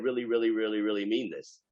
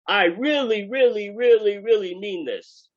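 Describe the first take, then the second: First: Said in the usual way. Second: Really hammered higher and louder each time; the sage insists: I really, really, really mean this, pushing it up high; emphatic quote. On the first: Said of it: "the fact that I said". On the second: Acted. Teacher voicing a sage, hammering each really, high and loud. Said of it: "I'm just trying to emphasize the point".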